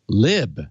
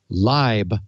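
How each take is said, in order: First: The vowel is short, as in 'lip'. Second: The vowel is long, as in 'lie'. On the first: The speaker calls it right. "like libertine" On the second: The speaker calls it wrong. "like library"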